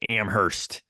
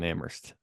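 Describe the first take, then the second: First: The h sound in the middle is pronounced. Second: The h sound in the middle is silent. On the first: It is how outsiders from the Midwest say it. The speaker calls it wrong. "I tended to pronounce the H as like a Midwesterner" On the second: It is how locals say it. The speaker calls it right. "I think it's silent"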